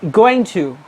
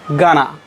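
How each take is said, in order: First: The words going to are said in full. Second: Going to is reduced to gonna. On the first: "And now going to" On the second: "the short form of the going to is gonna"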